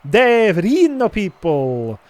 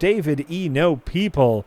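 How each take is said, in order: First: It is read in a put-on Italian accent. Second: It is read in the speaker's normal accent.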